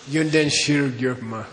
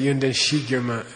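First: The second word starts with 'shir'. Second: The second word starts with plain 'shi'. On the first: The speaker calls it right. "it's a Daini grammar case. Shir" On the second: The speaker calls it wrong. "Some people mispronounce it"

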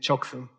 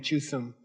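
First: The first syllable has an o vowel. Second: The first syllable has an u vowel. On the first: This is the everyday spoken form. The speaker calls it right. "In colloquial, you say Choksum" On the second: This is the spelled-out reading that speakers do not use. The speaker calls it wrong. "You don't say Chuksum. Nobody knows what you're talking about"

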